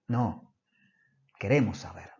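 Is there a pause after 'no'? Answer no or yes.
yes. It is said with a pause after 'no'.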